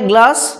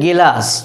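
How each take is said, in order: First: The g and l sounds are joined directly. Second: A vowel is inserted between g and l. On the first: "অনেকেই বলে গ্লাস" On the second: "আবার অনেকেই বলে গেলাস"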